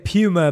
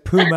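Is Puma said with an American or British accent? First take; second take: British; American. First: It is said with a British accent. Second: It is said with an American accent.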